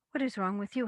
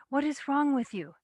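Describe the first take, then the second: First: Near-normal voice throwing the question back; husband's mild retort. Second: High, loud indignant demand; wife's indignant question. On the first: Hadami throws his wife's question back at her, mild retort. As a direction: toss her words back with mild annoyance. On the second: Wife confronts her husband Hadami, high loud indignant challenge. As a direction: demand it of him, raised and sharp. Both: A narrator's reading.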